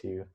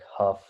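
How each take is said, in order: First: The name ends with a vowel sound. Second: The name ends with an f sound. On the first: This is how the speaker believes it is said. "I think it's Hugh" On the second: This is how the video's presenter says it. "the guy pronounces it like Huff"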